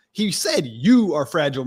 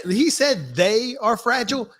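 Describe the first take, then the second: First: "you" hit as the pointed correction; stress on YOU. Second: "they" picked out, drawn-out and slow; stress on THEY. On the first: Throwing the insult back at the one meant, stress on "you". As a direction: punch "you" against "they". Correcting who the quote was about. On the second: Teammate quoting who was called fragile, stress on "they". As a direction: lean slowly on the word "they". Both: Retold or imitated.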